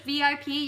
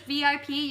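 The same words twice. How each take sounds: First: The letters are named with English letter names. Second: The letters are named with English letter names.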